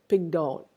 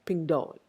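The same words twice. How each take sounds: No difference in how they are said.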